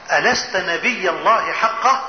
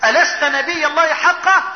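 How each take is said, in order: First: Low, slow, weighty question; grave challenge. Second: Raised-pitch, urgent question; distressed challenge. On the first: Umar questioning the Prophet, grave low challenge. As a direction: ask it slowly in a lowered voice. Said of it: "كلام شديد قوي". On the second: Umar unable to bear the treaty, distressed challenge. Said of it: "مش قادر يتحمل". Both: Retold or imitated.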